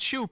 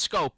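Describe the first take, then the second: First: The name begins with an "sh" sound. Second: The name begins with an "sk" sound. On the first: The speaker calls it wrong. "It's not shoop" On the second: The speaker calls it right. "it's scope"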